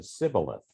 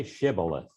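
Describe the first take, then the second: First: Sibboleth with a plain S opening; S at the front of Sibboleth; mispronounced Sibboleth. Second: Shibboleth with an opening SH sound; SH at the front of Shibboleth; correct Shibboleth. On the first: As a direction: say Sibboleth with S in place of SH. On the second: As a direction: say Shibboleth starting on a hushed SH. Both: A narrator's reading. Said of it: "he could not pronounce it correctly".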